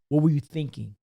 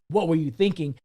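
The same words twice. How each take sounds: First: It is asked in a calm, curious tone. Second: It is asked in a harsh, negative tone.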